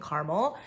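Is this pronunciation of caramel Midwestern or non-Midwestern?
Midwestern. It is said the Midwestern American way. "the way I'm pronouncing caramel. I come from the Midwest"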